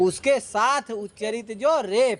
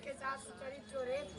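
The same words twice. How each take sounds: First: Teacher models the words slowly and clearly; slow model phrase. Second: Barely voiced, much softer repeat; quiet repeat. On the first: Shown as a demonstration. Teacher to student, slow clear model line. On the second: Real, not acted. Student to teacher, echoing the line in a whisper. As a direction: mumble it back under your breath.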